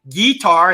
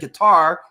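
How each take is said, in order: First: It is said with a Southern drawl. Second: It is said in a standard accent. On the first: The speaker's Southern upbringing slips out. "It'll come out every once in a while. You'll hear me say guitar" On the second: This is how the speaker usually talks now. "instead of"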